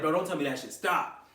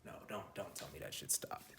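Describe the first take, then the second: First: Retold at normal, audible volume; retold dismay. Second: Real low, very soft aside; quiet dismay. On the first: Speaker tells viewers about the camera scare, retold dismay. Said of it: "I was like". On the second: Real, not acted. Speaker suspects the camera stopped, quiet dismay. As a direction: say it low to yourself.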